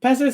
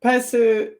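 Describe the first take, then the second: First: Pesu with a weak final vowel, PEH-suh; name pronounced Pesu. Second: Pesu with a clear final u, PEH-soo; name pronounced Pesu. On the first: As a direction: say Pesu with the ending reduced to uh. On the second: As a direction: say Pesu ending in an open oo. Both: Real, not acted. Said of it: "is it okay if I say Pesu?".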